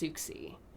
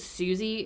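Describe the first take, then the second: First: The name is said with a ks sound. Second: The name is said with no k sound. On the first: The speaker calls it right. "I think it's pronounced Suxi" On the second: The speaker calls it wrong. "I think I said Susie in the previous episode"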